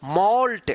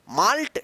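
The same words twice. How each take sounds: First: मॉल्ट with a rounded aw, falling; firm मॉल्ट, the aw sound clear; correct malt. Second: माल्ट with an open aa vowel; a quick माल्ट with a plain aa; wrong maalt. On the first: Teacher fixing the error with the right vowel, firmly. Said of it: "क्या पढ़ेंगे?". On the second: Teacher voicing the student's mistake, aa instead of aw. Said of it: "गलत।". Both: Shown as a demonstration.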